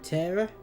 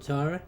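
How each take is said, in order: First: The first vowel sounds like in 'bet'. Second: The first vowel sounds like in 'car'. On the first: This is how the show says the name. "they pronounce it Terra" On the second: This is how the speaker's own group says the name. "as we call it Tara"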